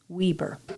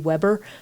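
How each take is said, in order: First: The first vowel is a long E. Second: The first vowel is a short E. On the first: "the first E becomes a long E, Weber" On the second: "I have heard people say Weber"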